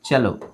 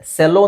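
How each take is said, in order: First: The word begins with a ch sound. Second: The word begins with an s sound. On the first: The speaker calls it right. "ಇದನ್ನ ನಾವು ಚೆಲೋ ಅಂತ ಹೇಳ್ಬೇಕು" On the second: The speaker calls it wrong. "ಸೆಲ್ಲೋ ಅಂತ ಅನ್ಸ್ಬೋದು"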